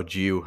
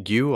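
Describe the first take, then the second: First: "Giu" as the other guess at the name; alternative pronunciation. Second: "Gu" as one guess at the name; unsure pronunciation. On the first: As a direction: offer "Giu" tentatively, as the second option. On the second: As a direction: try "Gu" tentatively, as the first option. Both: Shown as a demonstration. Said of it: "I've not actually looked yet".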